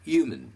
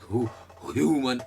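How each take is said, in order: First: The opening h is soft and light. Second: The opening h is strong and heavy. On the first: The speaker calls it right. "ह जो है हल्का-सा ही बोला जाएगा" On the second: The speaker calls it wrong. "ऐसे नहीं"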